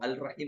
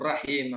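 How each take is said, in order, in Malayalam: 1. 'al' എന്നതിലെ L വ്യക്തമായി കേൾക്കാം. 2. L നിശബ്ദമാണ്, R ഇരട്ടിക്കുന്നു. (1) "അൽ റഹീം എന്ന് പറയാറില്ല" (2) "റഹീം എന്നേ നമ്മൾ കേൾക്കുള്ളൂ"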